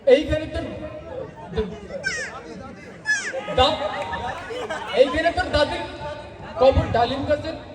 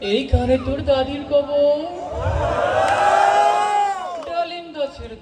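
First: It is recited with stuttering and repeated words. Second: It is recited in a serious, solemn manner. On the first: "তোতা সেও কবিতা আবৃত্তি করবে।" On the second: "এটা serious ছিল।"

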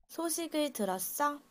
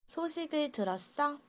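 The two takes are said the same way.

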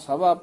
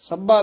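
First: The word is pronounced softly and lightly. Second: The word is pronounced hard and forcefully. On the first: The speaker calls it right. "ਪੋਲਾ ਹੀ ਉਚਾਰਨ ਕਰਨਾ ਹੈ" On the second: The speaker calls it wrong. "ਨਹੀਂ ਕਹਿਣਾ"

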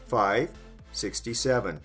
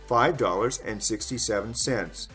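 First: The price is said without the words 'dollars' and 'cents'. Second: The price is said with the words 'dollars' and 'cents'. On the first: "Short way" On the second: "Long way"

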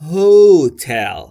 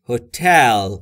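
First: The stress falls on the first syllable. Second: The stress falls on the second syllable. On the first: The speaker calls it wrong. "میگن هوتل به جای اینکه بگن هتل" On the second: The speaker calls it right. "استرس و فشار باید روی تی باشه"

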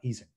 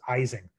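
First: The name is said the original, non-American way. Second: The name is said the common North American way. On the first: The speaker calls it right. "not Ising" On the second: The speaker calls it wrong. "at least in North America, we almost universally mispronounce his name as Ising"

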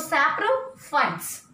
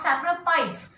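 First: The 'ph' is pronounced as an F sound. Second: The 'ph' is pronounced as a P sound. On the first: The speaker calls it right. "we have to give a pronunciation as F pronunciation" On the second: The speaker calls it wrong. "I am not giving the pronunciation of P, not saprophytes"

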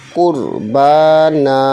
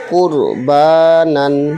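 First: The word ends with a long a vowel. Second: The word ends with an n sound. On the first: The reader stops on this word. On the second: The reading continues without stopping.

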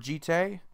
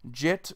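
First: The final vowel is drawn out with heavy emphasis. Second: The final vowel is dropped with no emphasis. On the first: "you're putting a ton of emphasis on the E" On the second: "you're either putting no emphasis on the E"

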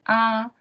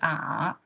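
First: The pitch stays high and level. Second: The pitch falls low then rises again. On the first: "The first tone would be R" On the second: "third one is R"

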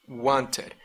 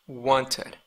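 The two takes are said the same way.

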